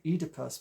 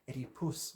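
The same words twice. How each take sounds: First: The stress falls in the commonly used position. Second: The stress falls in the reversed position. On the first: This is the usual way, which the speaker avoids. "I don't say Oedipus" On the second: This follows a Greek professor's usage. "with the emphasis that way round"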